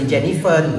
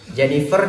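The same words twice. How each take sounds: First: The name ends with an N sound. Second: The name ends with an R sound.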